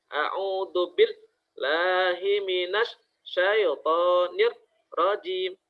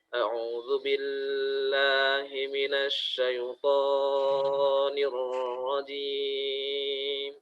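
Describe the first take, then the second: First: The doubled consonants are split into two sounds. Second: The vowels are stretched out far too long. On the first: "memisahkan antara tasydid dengan huruf yang bertasydidnya" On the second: "itu dengan bacaan yang terlalu panjang"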